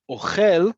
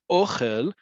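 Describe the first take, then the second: First: "Ochel" punched on the end, o-KHEL, high and loud; second-syllable stress. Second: "ochel" stressed on the O, OH-khel; first-syllable stress. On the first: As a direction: hit the last syllable of "Ochel" hard. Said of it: "The second word is a verb". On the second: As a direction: hit the first syllable of "ochel", ending on a rise. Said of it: "emphasis is on the first syllable". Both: Shown as a demonstration.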